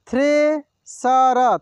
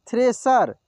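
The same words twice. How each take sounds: First: thresher drawn out slowly, syllable by syllable; slow sounding out. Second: Said in the usual way. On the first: Shown as a demonstration. Teacher slowly sounds out thresher for students. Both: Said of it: "एक एक मात्रा को अलग अलग करके".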